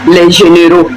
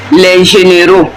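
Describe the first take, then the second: No difference in how they are said.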